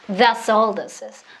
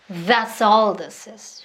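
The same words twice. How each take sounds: First: It is spoken faster still. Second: It is spoken a little faster. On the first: "조금 더 빠르게" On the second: "조금씩 빠르게"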